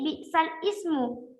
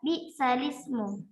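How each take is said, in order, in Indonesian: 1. Katanya diucapkan terpisah jadi dua bagian. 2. Katanya menyambung jadi satu. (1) "bukan lagi bi'sal ismu" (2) "Jadi dibaca bi'salismu"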